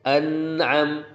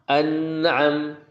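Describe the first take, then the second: Both takes have the same delivery.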